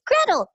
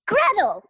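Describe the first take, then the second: First: Put-on higher, louder child's cry of Gretel; young actress announces herself to the crowd, higher and louder; child announcing her name. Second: Put-on high child calling out Gretel; a little girl stepping forward, proud; young actress on stage calls out her name, higher; child announcing her name. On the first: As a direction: belt it out like a proud little girl. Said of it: "she steps out and says". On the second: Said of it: "and she goes".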